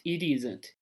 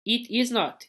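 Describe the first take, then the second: First: Isn't said as one lower, softer word; contracted form. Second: Said in the usual way. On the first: Shown as a demonstration. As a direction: blend it isn't into one quick unit. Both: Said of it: "Olha aqui, ó".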